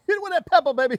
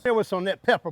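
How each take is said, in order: First: Higher, hyped-up cook's call; excited. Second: Said in the usual way. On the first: Real, not acted. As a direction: pump it up like a hype man. Seasoning the pot, hyping it.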